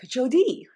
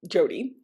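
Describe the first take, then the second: First: The name is said with a French-style pronunciation. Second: The name is said with a plain English pronunciation. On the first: "like a French pronunciation or a Haitian Creole pr- pronunciation, sort of like Jody" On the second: "pronounced just Jody"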